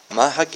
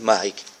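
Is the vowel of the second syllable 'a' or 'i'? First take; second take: a; i. First: The second syllable has the vowel 'a'. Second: The second syllable has the vowel 'i'. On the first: "Фатх" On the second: "Каср"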